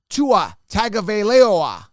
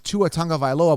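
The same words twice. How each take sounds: First: The surname starts with a plain 'Tago' sound. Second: The surname starts with a 'tongue'-like sound. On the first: The speaker calls it wrong. "I'm not pronouncing that right" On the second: The speaker calls it right. "but I don't see where the word tongue comes in there"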